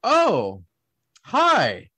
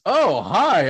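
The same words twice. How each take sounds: First: Stunned, drawn-out greeting with a gap between words; high, falling swoops, taken aback; shocked greeting. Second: Imitated greeting. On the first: Retold or imitated. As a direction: act out a slow, startled realization. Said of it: "I was kinda shocked". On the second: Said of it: "And he goes".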